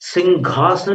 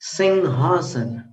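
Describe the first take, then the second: First: The nasal is followed by a hard 'gh' sound. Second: The nasal is a plain 'ng' without 'gh'. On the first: The speaker calls it wrong. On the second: The speaker calls it right.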